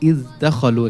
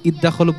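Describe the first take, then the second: First: The dh sound is pronounced clearly before the d. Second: The dh sound merges into the following d. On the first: The speaker calls it right. "এখানে যে জালটি আছে জালটাকে স্পষ্ট করতে হবে।" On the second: The speaker calls it wrong. "মানে এটা ইদগাম হয়ে যাবে, ইদগাম হবে না।"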